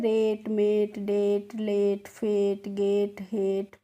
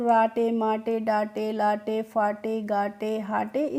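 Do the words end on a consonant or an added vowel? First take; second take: consonant; added vowel. First: Each word ends cleanly on the t sound. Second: Each word ends with an added vowel sound. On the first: The speaker calls it right. "कैसे पढ़ना है" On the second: The speaker calls it wrong. "इस तरीके से pronounce नहीं करना है"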